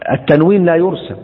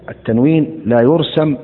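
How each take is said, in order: First: التنوين لا يرسم said high and loud, stress on التنوين; emphatic repeat. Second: Said in the usual way. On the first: Shown as a demonstration. Teacher stresses to students that التنوين لا يرسم. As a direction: hammer home that التنوين لا يرسم. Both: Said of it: "emphatic repeat".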